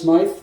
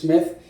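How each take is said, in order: First: The vowel is a long 'eye' sound. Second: The vowel is a short 'ih' sound. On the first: The speaker calls it wrong. "I've said it wrong for a few times" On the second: The speaker calls it right. "but I think it's Smith"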